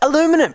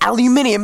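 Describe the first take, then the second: First: The word is said with four syllables. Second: The word is said with five syllables. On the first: The speaker calls it wrong. "aluminum is not pronounced aluminum" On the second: The speaker calls it right. "It's aluminium because that's how it's spelt"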